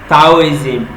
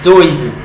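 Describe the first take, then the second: First: The word begins with a hard T sound. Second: The word begins with a softer D sound. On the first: The speaker calls it wrong. "that you might want to pronounce as Taoism, T A O I S M" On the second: The speaker calls it right. "but the right pronunciation is Taoism"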